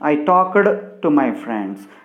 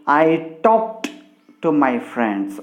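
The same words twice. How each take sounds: First: The ending of talked is an extra syllable. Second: The ending of talked is a plain t sound. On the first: The speaker calls it wrong. "We should not say it as" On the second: The speaker calls it right. "we should have to say it as"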